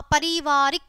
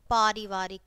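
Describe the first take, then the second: First: पारिवारिक said "parivaarik", short first "a"; wrong short vowel. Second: पारिवारिक said "paarivaarik", long first "aa"; correct long vowel. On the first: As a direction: start पारिवारिक on a quick "pa". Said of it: "पहले हमारी अशुद्ध शब्द है". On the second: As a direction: lower पारिवारिक, opening on long "paa". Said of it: "और फिर शुद्ध है". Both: Shown as a demonstration.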